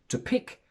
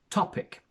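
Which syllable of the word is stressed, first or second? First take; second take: second; first. First: The stress is on the second syllable. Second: The stress is on the first syllable. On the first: The speaker calls it wrong. "which would be the option if the stress fell onto the second syllable" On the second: The speaker calls it right. "the first syllable is a stressed one"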